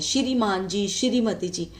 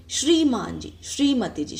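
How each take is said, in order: First: श्रीमान जी said as "shiri-maan ji" with an extra i after sh; श्रीमती जी split into "shi-ri-mati ji" with an extra vowel; common wrong pronunciation. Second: श्रीमान जी with a tight "shree" cluster and no extra vowel; श्रीमती जी said "shree-mati ji" with the sh and r joined; correct pronunciation. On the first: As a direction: demo of the wrong श्री said as "shiri". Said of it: "कई लोग ना इनको श्री बोलते हैं". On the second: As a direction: demo of the right श्री, sh and r together in one syllable. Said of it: "ये होता है श्री". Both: Shown as a demonstration.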